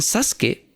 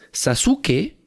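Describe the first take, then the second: First: It is pronounced the way native speakers say it. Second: It is pronounced letter by letter as written. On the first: This is how it sounds in real life. The speaker calls it right. "pero ellos dicen Sasuke" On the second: This is how a reader imagines it sounds. The speaker calls it wrong. "si tú lees Sasuke"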